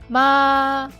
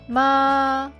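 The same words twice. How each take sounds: First: The pitch stays high and level. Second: The pitch stays high and level.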